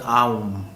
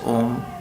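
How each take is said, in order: First: The vowel glides from A toward U. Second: The word has a single plain O vowel. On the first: The speaker calls it right. "technically it is pronounced as Aum" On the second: The speaker calls it wrong. "some people pronounce it as Om"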